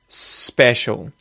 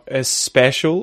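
First: The word starts directly with the S. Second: An extra vowel sound comes before the S. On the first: The speaker calls it right. "It's just special" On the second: The speaker calls it wrong. "it's not a special"

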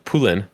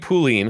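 First: The name is said with a French pronunciation. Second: The name is said with an English pronunciation. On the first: "but it's French, so it's Poulin" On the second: "I say Pauline"

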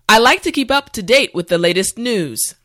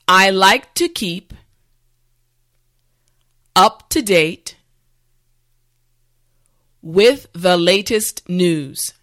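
First: The sentence is spoken at normal speed. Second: The sentence is spoken slowly and carefully. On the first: "the last time at a regular pace" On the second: "this time repeat after me"

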